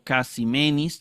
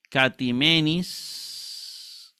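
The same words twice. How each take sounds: First: "casimenis" with an s sound in place of t; s-sound variant. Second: "catimenis" with a hard t, drawn out slowly; slow Greek reading of "catimenis" with a t sound; t pronunciation. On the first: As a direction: say "casimenis" with s in the middle. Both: Shown as a demonstration. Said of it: "también está correcto".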